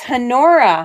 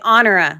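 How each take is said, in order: First: The first H is pronounced. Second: The first H is silent. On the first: The speaker calls it right. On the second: The speaker calls it wrong.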